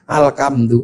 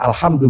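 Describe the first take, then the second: First: It is read in a Javanese accent. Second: It is read in standard Arabic.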